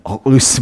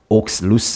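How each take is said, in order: First: The middle consonant is mostly dropped. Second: The middle consonant is clearly pronounced. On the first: "이걸 좀 발음을 잘 안 하고 그냥 어루스 뭐 이렇게" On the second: "저는 읽을 때 어떻게 읽냐면, 옥스루스 이렇게 읽거든요"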